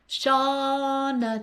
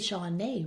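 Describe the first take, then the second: First: The last vowel is a weak, reduced 'uh'. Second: The last vowel is a full 'ay' sound. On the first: "I was Schwad" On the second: "It should be Shawnee, really"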